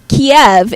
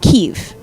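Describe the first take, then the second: First: It is said with the Russian pronunciation. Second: It is said with the Ukrainian pronunciation. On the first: It signals siding with Russia. "Kiev is how Russians say the city" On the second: It signals siding with Ukraine. "Ukrainians say Kiev"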